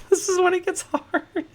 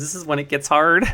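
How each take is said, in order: First: A squeaky, laughing high-voiced repeat; silly high voice. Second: Said in the usual way. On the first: Streamer to his chat, mocking himself in squeaky falsetto. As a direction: echo the line in a giddy falsetto.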